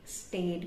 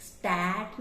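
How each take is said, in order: First: स्टेट with e as in state; wrong vowel. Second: स्टैट with a flat ae; wrong vowel. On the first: Teacher showing another wrong start. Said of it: "स्टेट भी नहीं बोलते". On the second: Teacher showing the wrong start. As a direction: say स्टैट with ae as in cat. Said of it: "स्टैट नहीं बोलते". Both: Shown as a demonstration.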